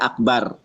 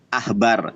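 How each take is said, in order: First: The middle consonant is a hard k stop. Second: The middle consonant is a soft breathy h. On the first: "dages seperti ini baru dibaca akbar" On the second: "Itu tulisannya ahbar"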